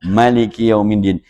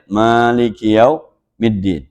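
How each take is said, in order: First: The first vowel of Maliki is kept short. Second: The first vowel of Maliki is drawn out long. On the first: It means the king of the Day of Judgment. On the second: It means the owner of the Day of Judgment. "Kita bacanya"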